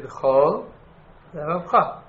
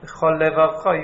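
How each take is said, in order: First: The two words are kept slightly apart. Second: The two words are run together as one. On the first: The speaker calls it right. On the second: The speaker calls it wrong. "If you say it at once, you're missing a Lamed"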